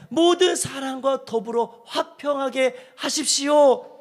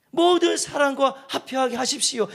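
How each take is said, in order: First: 모든 leaned on, the whole verse slow and weighty; stress on 모든. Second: Said in the usual way. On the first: Shown as a demonstration. Pastor reading verse eighteen aloud, slow with 모든 stressed. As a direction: read the verse slowly, leaning on 모든. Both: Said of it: "오늘 십팔 절에 그랬잖아요".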